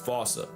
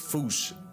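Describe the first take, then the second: First: It is said with an o vowel, two syllables. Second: It is said as one syllable ending in sh. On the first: It is how the English say the name. The speaker calls it wrong. "while England pronounces it as Fossa" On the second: It is closest to the original local word. The speaker calls it right. "the correct way to say it is foosh"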